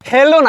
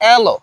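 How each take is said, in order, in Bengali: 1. শব্দটি স্পষ্ট h ধ্বনি দিয়ে শুরু হয়। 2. শব্দটি কোনো h ধ্বনি ছাড়াই শুরু হয়। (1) "হ্যালো না" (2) "এটা ব্রিটিশ অ্যাকসেন্ট হবে এলো"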